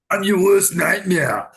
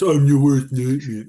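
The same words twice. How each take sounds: First: Said in a put-on Austrian-accented action-hero voice. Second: Said in a gruff put-on American action-hero voice. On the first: "No, this is Arnold"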